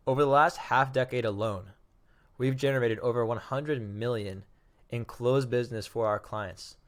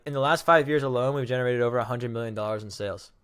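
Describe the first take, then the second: First: Measured pitch with pauses between phrases; slow, impactful. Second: Rattled-off pitch, words run together; super fast, slurred. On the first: Better elevator pitch for clients, deliberate and paused. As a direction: let each phrase land before the next. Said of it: "That's much more impactful". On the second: Bad elevator pitch for a company, rushed and slurred. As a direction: rush through the pitch without a pause. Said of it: "That was super fast, and I, like, slurred it all together". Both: Shown as a demonstration.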